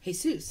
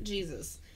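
First: The name is said the Spanish way. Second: The name is said the English way. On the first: The speaker calls it right. "okay, Jesus" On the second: The speaker calls it wrong. "not Jesus"

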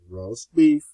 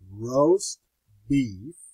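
First: It is said at a normal pace. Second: It is said at a much slower pace.

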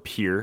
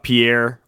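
First: The name is said the South Dakota way. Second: The name is said the usual way.

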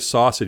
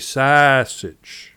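First: The word is said in a general accent. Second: The word is said in a Chicago accent. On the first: "you don't say sausage" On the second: "you say sausage"

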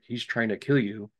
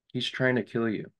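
First: It is said intensely with lively inflection. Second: It is said flatly without any inflection. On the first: The speaker calls it right. "the things that were supposed to be like a little bit more of like intense" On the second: The speaker calls it wrong. "Instead of having an inflection"

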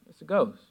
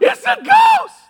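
First: It is said in a calm, flat way. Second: It is said in a scared, frightened way.

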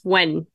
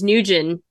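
First: The name sounds like when, with one syllable. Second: The name sounds like Nugent, with two syllables. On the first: The speaker calls it right. "but it's when" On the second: The speaker calls it wrong. "I thought it was Nugent"

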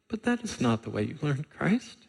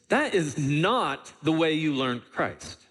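First: It is said calmly, as a plain statement. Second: It is said emphatically, as an exclamation.

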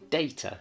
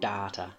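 First: It is said with a British English pronunciation. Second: It is said with a non-British English pronunciation. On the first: "In British English, we would say data" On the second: "the accent is slightly different"

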